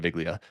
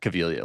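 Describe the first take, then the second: First: The name is said with English-style sounds. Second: The name is said with Italian-style sounds. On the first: The speaker calls it wrong. "instead of" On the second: The speaker calls it right. "like Italian"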